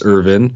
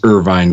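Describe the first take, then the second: First: The surname is said the family's Scottish way. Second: The surname is said like the California city. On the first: This is how the family says its own name. "the way that we pronounce my last name is Irvin" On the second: This form is easier for outsiders to recognize. "sometimes I do say Irvine because people recognize Irvine, California"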